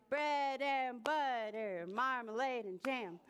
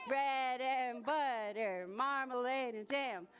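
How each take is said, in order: The two takes are said the same way.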